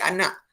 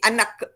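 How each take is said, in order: First: The word ends with a glottal stop. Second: The word ends with a released k sound. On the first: This is the normal Malay pronunciation. The speaker calls it right. "kita gantikan dengan bunyi glotis. Jadi jadi anak. K itu tak kedengaran" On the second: This is how it sounds when the K is pronounced, as Filipinos do. The speaker calls it wrong. "Kalau kita bunyikan K, dia akan jadi anak"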